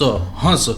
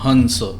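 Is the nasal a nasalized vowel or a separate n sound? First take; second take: nasalized vowel; separate n. First: The vowel itself is nasalized, with no separate n. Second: A separate short n follows the vowel. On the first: It means to laugh. "ह और न की ध्वनि एक साथ निकलेगी" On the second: It means swan. "ह की ध्वनि समाप्त हो गई, उसके बाद बिंदी की ध्वनि आई आधा न की, फिर स"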